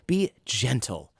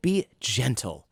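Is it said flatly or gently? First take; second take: gently; gently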